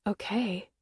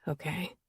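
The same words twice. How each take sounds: First: Disbelieving okay, falling; stunned echo of okay; incredulous. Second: Very soft, rising okay; hushed surrendering okay; soft acceptance. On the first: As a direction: throw his okay back at him in disbelief. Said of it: "That's not the right answer". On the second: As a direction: breathe a gentle okay as he nods. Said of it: "he nods slowly". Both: A narrator's reading.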